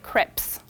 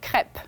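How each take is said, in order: First: The final s is pronounced. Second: The final s is silent. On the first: The speaker calls it wrong. "we never actually say crêpes" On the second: The speaker calls it right. "We say crêpe, even if it's plural"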